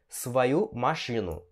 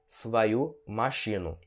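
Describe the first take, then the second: The two takes are said the same way.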